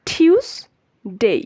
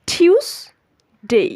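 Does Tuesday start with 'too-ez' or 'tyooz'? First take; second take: tyooz; tyooz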